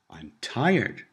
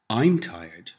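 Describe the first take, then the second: First: The stress falls on the word tired. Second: The stress falls on the word I'm. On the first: It says how the person feels. "answering the question, how do you feel?" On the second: It says who is tired, as opposed to someone else. "answering the imaginary question, who's tired? Or opposing it to, you're tired"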